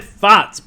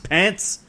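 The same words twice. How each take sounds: First: Farts said slow and loud, a high laughing blurt; the accidental word; slip of the tongue. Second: Said in the usual way. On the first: Real, not acted. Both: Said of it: "I said farts".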